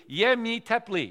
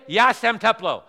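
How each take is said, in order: First: 'Je mi teplý.' said slowly and carefully in Czech; correct Czech phrase. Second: 'Ja jsem teplo.' said loud and higher as a warning; wrong Czech phrase. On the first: Friend teaching the proper Czech phrase, said slowly. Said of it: "You have to say in Czech, literally". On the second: Friend warning which Czech phrase never to use, loud. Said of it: "never say". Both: Shown as a demonstration.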